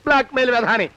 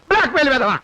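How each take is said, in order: First: Said in the usual way. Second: Angry outburst. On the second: Acted. Cornered boss insulting his blackmailer, angry outburst. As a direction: insult thrown out with more force.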